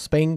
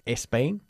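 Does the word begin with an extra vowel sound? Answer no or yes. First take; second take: no; yes. First: The word starts directly with the s sound. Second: The word starts with an added e sound. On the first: The speaker calls it right. "No es como Spain" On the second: The speaker calls it wrong. "que no se dice Spain"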